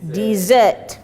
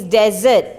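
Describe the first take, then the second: First: "dessert" said diz-ERT, long ee sound, stress on the second syllable; teacher modelling "dessert" with a long ee; sweet course pronunciation. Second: "desert" said DEZ-ert, short e, stress on the first syllable; teacher modelling "desert" as DEZ-ert; dry land pronunciation. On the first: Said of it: "the one that you eat after your meal is dessert". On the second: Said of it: "Make sure this one is desert". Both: Shown as a demonstration.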